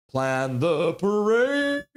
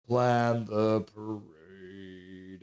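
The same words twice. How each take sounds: First: Slow, stretched-out call, a bit higher; drawn-out announcement. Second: Very slow and lower, every word stretched; deep drawn-out announcement. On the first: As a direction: stretch every word like a big announcement. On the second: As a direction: drop low and drag it out like a trailer voice. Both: Shown as a demonstration. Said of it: "Was that pretty good?".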